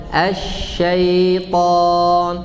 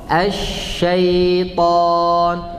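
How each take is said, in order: No difference in how they are said.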